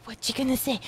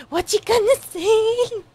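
First: Said in the usual way. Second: Higher, louder eager plea; excited anime fan urging a character. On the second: Real, not acted. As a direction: urge the character on, thrilled. Reacting, repeats louder higher.

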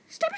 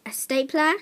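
First: Much higher, a quick squeak of the word Stapler; squeaky high. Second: Said in the usual way. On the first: Shown as a demonstration. Kid naming a stapler, repeating it in a squeaky high voice. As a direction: pop Stapler up into a tiny high voice.

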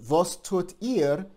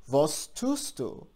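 First: "Was tut ihr?" said slowly, a bit higher and louder; slow model phrase. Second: "Was tust du?" said slowly and clearly, word by word; slow model phrase. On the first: Teacher shows the plural question, slow and clear. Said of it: "in the plural or the singular formal". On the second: Teacher shows students how to ask, slow and clear. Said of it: "we say". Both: Shown as a demonstration.

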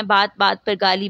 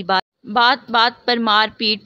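First: Said in the usual way. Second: "بات بات" drawn out slow and louder; emphatic repetition. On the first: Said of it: "repeated phrase, then emphasized". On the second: A narrator's reading. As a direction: lean hard on each "بات", slowly. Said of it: "repeated phrase, emphasized". ("بات بات" پر زور دے کر آہستہ)

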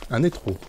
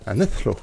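First: Said in the usual way. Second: NETHRO with an English "th"; French speaker attempting English pronunciation; English accent. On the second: Shown as a demonstration. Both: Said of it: "en anglais".

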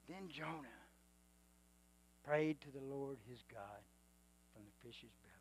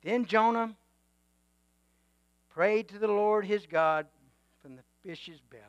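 First: Much softer, lower repeat; soft reverent reread of the verse; hushed reading. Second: Said in the usual way. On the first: Shown as a demonstration. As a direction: drop it to a near hush the second time. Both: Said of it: "This next part is big".

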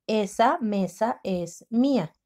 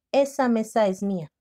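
First: Slow, each word spaced; slow careful reading; slow dictation. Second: Said in the usual way. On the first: Shown as a demonstration. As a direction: read it slowly for writing. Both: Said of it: "La palabra mía lleva acento".

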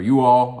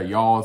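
First: Said in the usual way. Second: You all run together as y'all; Kentucky form. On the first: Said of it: "or y'all as we say in Kentucky". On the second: Shown as a demonstration. Showing viewers how Kentucky says it, y'all contracted. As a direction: say y'all as one Kentucky syllable. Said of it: "as we say in Kentucky".

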